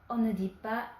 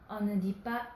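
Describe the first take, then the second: The two takes are said the same way.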